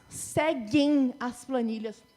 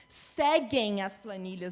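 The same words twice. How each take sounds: First: "Seguem" drawn out slowly, the final nasal held; stress on seguem. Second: "Seguem" said slow and low, ending on a clear nasal; slow, low repeat of "Seguem"; stressed plural repeat. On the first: Teacher drawing out "Seguem" slowly to show the plural. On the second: Teacher repeating "Seguem" slow and low for emphasis. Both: Shown as a demonstration. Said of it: "Não segue as planilhas".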